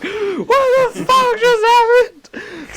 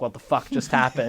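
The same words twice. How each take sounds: First: Very high, drawn-out cry of disbelief; acted shocked outburst. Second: Softer, stunned aside; muted shock. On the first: Storyteller left alone after the whisper, high shocked outburst. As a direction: stretch it into a high, stunned wail. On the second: Retold or imitated. Storyteller stunned after the camping questions, muted shock. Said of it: "in shock".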